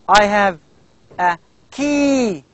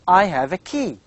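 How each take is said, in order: First: The vowel in key is stretched out very long. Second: The vowel in key has its normal length. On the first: The speaker calls it wrong. "We never say like this" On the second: The speaker calls it right. "you speak normally"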